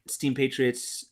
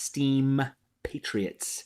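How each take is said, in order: First: The name is said very quickly. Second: The name is said slowly and clearly. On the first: The speaker calls it wrong. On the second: The speaker calls it right.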